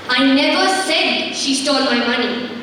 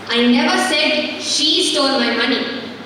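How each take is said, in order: First: The stress falls on the word "said". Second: The stress falls on the word "she". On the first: "I didn't speak out, but yes, she stole it" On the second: "She didn't"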